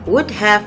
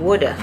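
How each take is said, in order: First: 'Have' is said in full. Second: 'Have' is reduced to a short 'a' sound.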